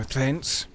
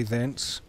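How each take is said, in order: First: "thence" said over with deliberate emphasis. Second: Said in the usual way. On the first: Real, not acted. Player redoing an old-fashioned word, emphasis on "thence". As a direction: lean playfully into the word "thence". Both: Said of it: "to put a more accurate emphasis on it".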